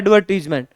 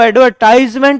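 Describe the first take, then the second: First: The middle syllable has an 'ee' vowel. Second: The middle syllable has an 'eye' vowel. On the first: This is the correct, proper pronunciation. The speaker calls it right. "पर शुद्ध उच्चारण है एडवर्टीजमेंट" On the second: This is a common everyday pronunciation. The speaker calls it wrong. "हम उसको एडवर्टाइजमेंट भी बोल देते हैं"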